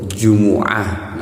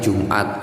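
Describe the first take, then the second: First: The m is followed by a u vowel. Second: The m is followed directly by a consonant. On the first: "di domah mimnya tidak disukun" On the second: "Kalau Jumat yang biasa kita uh, apa namanya uh, bicarakan sehari-hari"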